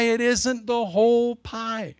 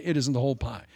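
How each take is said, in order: First: Higher and slow, leaning hard on whole; slow pulpit stress on whole; slow emphatic preaching. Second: Said in the usual way. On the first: Shown as a demonstration. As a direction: drive it home, stretching out whole. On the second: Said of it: "Your piece of the pie is one piece of the pie".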